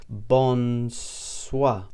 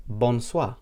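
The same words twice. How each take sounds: First: BONSOIR very slow, bon... soir; slow demonstration. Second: BONSOIR said clearly as one word; Maltese bonsoir. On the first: Teacher repeats evening greeting for learners, slowly stretched bonsoir. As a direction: draw both syllables of bonsoir right out. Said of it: "That's bonsoir". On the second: Teacher answers how to greet in the evening, clear bonsoir. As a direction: present bonsoir carefully, Maltese style. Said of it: "you'd say". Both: Shown as a demonstration.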